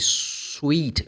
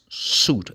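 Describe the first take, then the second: First: A w glide follows the s sound. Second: No w glide follows the s sound. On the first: The speaker calls it wrong. "people mispronounce. They say sweet" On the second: The speaker calls it right. "The letter I is not pronounced. It's suit"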